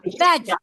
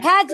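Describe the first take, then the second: First: ভেজ with a true V, upper teeth on lower lip; correct veg. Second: ভেজ said as the pupil's wrong version, the error mimicked; imitating the mispronounced ভেজ; wrong veg. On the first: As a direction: show the right ভেজ, teeth touching the lip. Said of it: "উপরের দাঁত নিচের ঠোঁট". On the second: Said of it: "ভেজ না". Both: Shown as a demonstration.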